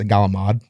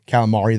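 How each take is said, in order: First: It is said in an Italian-American dialect. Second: It is said with standard American pronunciation.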